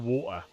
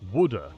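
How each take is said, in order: First: It is said with a clear t sound. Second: It is said with a d-like middle sound. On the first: This is how the speaker normally says it. "I'm a northerner in England, so I say water" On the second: This is how others say it. "You say wooder?"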